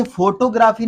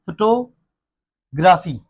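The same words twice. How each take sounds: First: फोटोग्राफी as FO-to-GRAA-fee; wrong pronunciation. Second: फोटोग्राफी slow as fuh-TO-gruh-fee; short first vowel in फोटोग्राफी, break after TO; correct pronunciation. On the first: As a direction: open फोटोग्राफी with a full FO and stretch GRAA. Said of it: "तो इसे फोटोग्राफी नहीं". (फोटोग्राफी ग़लत, फ़ो-टो-ग्रा-फ़ी) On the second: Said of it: "इसे पढ़ते हैं". (फोटोग्राफी सही, फ़-टो... ग्रफ़ी) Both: Shown as a demonstration.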